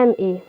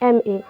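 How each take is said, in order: First: The first letter starts with a vowel sound. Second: The first letter starts with a vowel sound.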